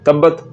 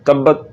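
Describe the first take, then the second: No difference in how they are said.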